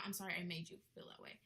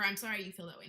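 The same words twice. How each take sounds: First: Said in the usual way. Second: The wrong way: "I'm" leaned on, dismissive; quoting the fake apology with a dismissive lean on "I'm"; fake apology, stressing sorry. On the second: Shown as a demonstration. Vlogger quotes a fake apology to show the wrong version, dismissive.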